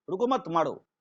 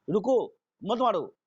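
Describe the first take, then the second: First: रुको मत as one group, then मारो; pause after मत. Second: रुको drawn out alone, then मत मारो; pause after रुको. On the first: Teacher repeating the example to students, pause after मत. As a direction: join रुको to मत, slight break before मारो. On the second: Teacher repeating the example to students, pause after रुको. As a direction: break after रुको, keep मत मारो together. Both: Shown as a demonstration. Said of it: "ये दोनों word है".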